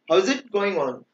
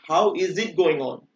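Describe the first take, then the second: First: How and is are joined into how's. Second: How and is are said as separate words. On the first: The speaker calls it right. "We have to pronounce how's it going on" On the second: The speaker calls it wrong. "we don't have to pronounce like how is it going on"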